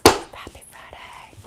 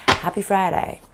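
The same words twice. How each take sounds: First: Breathy whispered greeting, slowed down; soft slow whisper to the camera. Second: Said in the usual way. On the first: Shown as a demonstration. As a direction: whisper it like a little secret. Greeting viewers, then whispered repeat.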